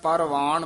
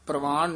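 First: A vowel separates the p and r sounds. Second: The p and r form one consonant cluster. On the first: The speaker calls it right. "ਸਾਰਾ ਪੂਰਾ ਪਰਵਾਨ ਬੋਲਣਾ ਹੈ" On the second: The speaker calls it wrong. "ਪ੍ਰਵਾਨ ਨਹੀਂ ਕਹਿਣਾ। ਜੇ ਪ੍ਰਵਾਨ ਕਵਾਂਗੇ ਤਾਂ ਹੇਠਾ ਰਾਰਾ ਲੱਗ ਜਾਂਦਾ"

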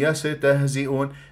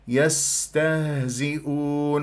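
First: The s sound is muffled, without a hiss. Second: The s sound is soft, airy and hissing. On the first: The speaker calls it wrong. "ما تقولي يستهزئون" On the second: The speaker calls it right. "انطيها الرخاوة وانطيها جريان النفس واعطيها الصفير"

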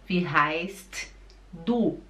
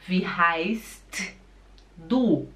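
Both takes have the same delivery.

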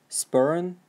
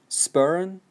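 The two takes are said the same way.

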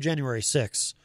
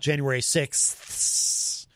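First: The number ends in 'six' without the th. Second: The number ends in 'sixth' with the th. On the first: "I'll just say January 6th" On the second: "not January 6th"

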